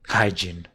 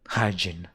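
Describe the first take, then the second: The two takes are said the same way.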